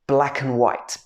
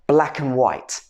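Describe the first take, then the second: No difference in how they are said.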